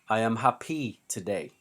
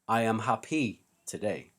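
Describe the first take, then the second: First: Happy is stressed on its last syllable. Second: Happy is stressed on its last syllable.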